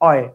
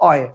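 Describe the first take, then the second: First: The two vowels are run quickly together. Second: The same.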